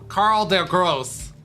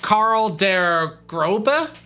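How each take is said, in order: First: The last word has an S sound in the middle. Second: The last word has a B sound in the middle. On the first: "so it's like a double S sound" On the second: "I don't know what the the B the B like symbol is pronounced like"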